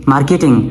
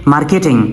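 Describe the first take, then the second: Both takes have the same delivery.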